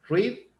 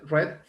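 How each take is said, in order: First: It uses the present-tense vowel sound. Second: It uses the past-tense vowel sound. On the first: The action happens now. "se pronuncia en, en presente" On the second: The action already happened. "si es en pasado"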